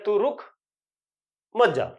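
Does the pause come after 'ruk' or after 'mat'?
after ruk. There is a pause after 'ruk'.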